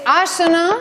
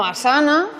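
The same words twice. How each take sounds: First: "Asana" as AA-sa-na, slow and higher; stress on first syllable. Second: "Asana" as a-SA-na; mistaken middle stress. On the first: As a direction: lean on the long first A of "Asana". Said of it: "el acento en la tercera sílaba". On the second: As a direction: say "Asana" with the accent wrongly on SA. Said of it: "y no Asana". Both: Shown as a demonstration.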